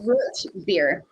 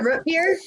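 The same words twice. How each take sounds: First: It is said the way Southerners say it. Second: It is said the speaker's usual, non-Southern way.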